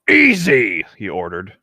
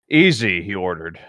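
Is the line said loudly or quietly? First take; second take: loud; quiet. First: It is said loudly, like shouting. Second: It is said at a calm, ordinary volume. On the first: "Do you want me to make it sound all caps?" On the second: "that didn't sound all caps at all"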